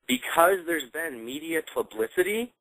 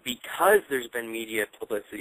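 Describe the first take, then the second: First: The phrase is spoken at a slower pace. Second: The phrase is spoken at a quicker pace.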